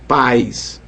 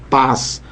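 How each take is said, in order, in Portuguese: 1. A vogal desliza para um som de i. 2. A vogal é um a simples. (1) "falamos pais" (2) "nós não falamos paz"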